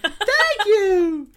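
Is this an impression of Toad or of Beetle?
Beetle. It is said in a Beetle impression voice.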